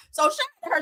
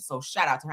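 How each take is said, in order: First: High, bright-pitched shout-out to her; excited shout-out. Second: Said in the usual way. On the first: Real, not acted.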